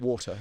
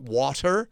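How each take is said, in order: First: British "water", non-rhotic ending. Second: WATER stretched out with an American R at the end; slow American "water", hard final R; American-style water. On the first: Shown as a demonstration. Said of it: "I've got this horrible Mid-Atlantic sound". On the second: Retold or imitated. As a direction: imitate an American waiter saying "water", slowly, R sounded. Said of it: "they go".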